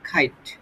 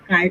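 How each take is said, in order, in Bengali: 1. প্রথম 'k' ধ্বনিটি জোরালোভাবে মহাপ্রাণ। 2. প্রথম 'k' ধ্বনিটি সাধারণ, এতে কোনো মহাপ্রাণতা নেই। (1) "ব্রিটিশ ইংলিশ হচ্ছে তোমার খাইট" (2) "ওটা কাইট উচ্চারণ হবে না"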